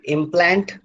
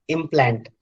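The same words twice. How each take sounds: First: Implant stressed on the second syllable; verb stress. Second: Implant stressed on the first syllable; noun stress. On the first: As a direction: say implant as a verb, weight on plant. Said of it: "then second syllable is stressed". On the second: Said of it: "then the first syllable is". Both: Shown as a demonstration.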